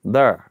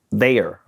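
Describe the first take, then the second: First: "There." said as "thurr", vowel fully r-coloured; his home St. Louis way of saying "There.". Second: "there" said the standard way, open vowel, no r-colouring; careful textbook "there", not "thurr". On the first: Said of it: "how I say it". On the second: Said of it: "I can't even say". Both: Shown as a demonstration.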